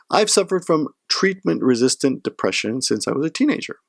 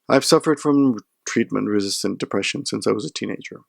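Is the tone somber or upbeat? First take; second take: upbeat; somber. First: It is read in a light, upbeat tone. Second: It is read in a heavier, somber tone.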